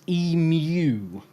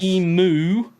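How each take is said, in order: First: The second syllable is said as 'yoo'. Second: The second syllable is said as 'oo'. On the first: The speaker calls it right. "it's a U" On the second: The speaker calls it wrong. "It's not oo"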